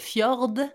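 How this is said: It has a French accent, with the D.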